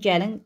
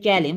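First: The stress is on the last syllable. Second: The stress is on the first syllable. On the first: "Gəlində vurğu inə düşdü" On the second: "vurğu birinci ecədir"

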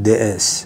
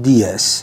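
First: The article sounds like 'thuh' before S. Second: The article sounds like 'thee' before S. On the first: The speaker calls it wrong. "نگفتم DS" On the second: The speaker calls it right. "اگه دقت کردید من گفتم DS"

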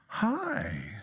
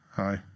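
First: It sounds falsely bright and cheerful. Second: It sounds honestly low and sad.

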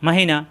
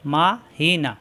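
First: The syllables are run together quickly. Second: The syllables are said separately with pauses.

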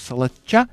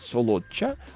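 First: The vowels sound like A, Moscow style. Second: The vowels are pronounced as clear O sounds. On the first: This is how outsiders from Moscow say it. "Мы москали клятые, называем его с ударением на А" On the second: This is how the locals say it. "Местные предпочитают быть немножко волжанами и окоть. Они говорят Солоча"

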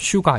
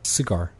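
First: The first vowel is a full oo sound. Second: The first vowel is a weak, reduced sound. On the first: The speaker calls it wrong. "우 발음으로 잘못해버리면 슈 가 우리는 뭐 슈가 이렇게 하죠" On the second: The speaker calls it right. "스, 약한 발음"

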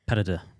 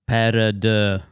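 First: It is said at a normal pace and volume. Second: It is said very slowly and loudly.

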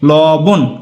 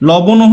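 First: The word ends sharply on a consonant. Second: The word ends with an added vowel sound. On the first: The word is written with the consonant-ending mark. The speaker calls it right. "একটু হর্ষচিহ্ন দিয়ে দিলাম, যার কারণে হয়ে গেল কি লবণ" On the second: The word is written without the consonant-ending mark. The speaker calls it wrong. "এই যে লবণও হয়ে যাচ্ছিল"

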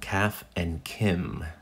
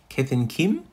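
First: It is said in a plain American accent. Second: It is said in a put-on Australian accent.

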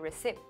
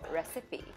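First: The final vowel sound is left silent. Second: The final vowel sound is clearly pronounced. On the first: The speaker calls it wrong. "some people think we don't pronounce the last E in certain words. So they say recipe" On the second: The speaker calls it right. "you do pronounce the E in the end, so recipe"

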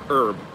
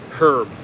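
First: The word starts with a vowel, no H. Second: The word starts with a clear H sound. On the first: This is how American speakers say it. "as if the H isn't there" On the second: This is how British speakers say it. "Like you actually enunciate the H"

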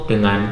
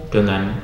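No difference in how they are said.

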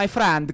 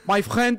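First: It is spoken in an Italian accent. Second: It is spoken in a French accent. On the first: "Do italiano fala" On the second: "Aí o francês é"

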